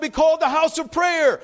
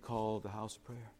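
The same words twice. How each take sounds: First: It is said loudly, in a yelling voice. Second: It is said quietly, in a calm voice. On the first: The speaker is angry and heartbroken. The speaker calls it right. "I think he said it that way. He was yelling" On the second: The speaker is only mildly asking a question. The speaker calls it wrong. "I don't think he went in there and said"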